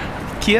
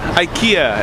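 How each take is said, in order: First: The name is said the way people in Japan say it. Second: The name is said the way North Americans say it. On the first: The speaker calls it right. "as they say here" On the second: The speaker calls it wrong. "Growing up in Canada, I always called it IKEA"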